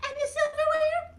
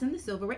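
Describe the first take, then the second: First: High puppet chime-in; Mimi. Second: Said in the usual way. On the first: Acted. Mimi adds to the table setting, high puppet voice. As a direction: pipe up in a tiny, high character voice.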